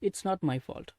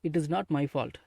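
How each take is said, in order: First: 'It is' is contracted into one syllable. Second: 'It is' is said as two full words. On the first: "இல்லைன்னா இட்ஸ் not my fault" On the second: "இட் இஸ் not my fault அப்படின்னு பேசிக்கோங்க"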